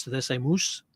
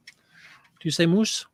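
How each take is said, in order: First: Said in the usual way. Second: Moose stretched very slowly with a rising question; drawn-out moose. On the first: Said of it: "So if you say mouse". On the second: Shown as a demonstration. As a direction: draw out moose as a long oo sound to tease. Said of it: "Say mouse, Dawn".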